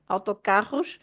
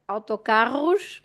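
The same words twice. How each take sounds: First: The r is made in the throat. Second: The same.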